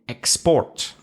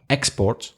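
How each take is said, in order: First: The stress is on the second syllable. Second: The stress is on the first syllable. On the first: It is used as a verb. "if it's a verb, you're going to stress the second syllable" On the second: It is used as a noun. "if it's a noun, you'll probably stress the first syllable"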